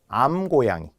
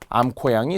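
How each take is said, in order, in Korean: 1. 두 번째 음절은 예사 g로 시작해요. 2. 두 번째 음절은 거센 k로 시작해요. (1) "그냥 암고양이" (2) "암코양이, 수코양이 이렇게 이야기하는 분들이 있어요"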